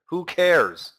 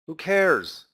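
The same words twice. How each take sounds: The two takes are said the same way.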